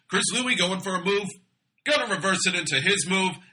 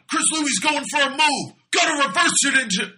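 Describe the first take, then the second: First: It is said flatly, without excitement. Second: It is said with lots of excitement.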